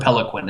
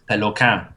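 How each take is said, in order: First: The name is said with an English pronunciation. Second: The name is said with a French pronunciation. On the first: This is the easier preferred everyday form. "I really just prefer Peliquin. It's much easier" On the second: This is the technically correct original form. "technically it's supposed to be Peloquin, with the whole douchey accent"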